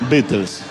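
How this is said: The name is read with Spanish spelling sounds. "los argentinos decimos Beatles"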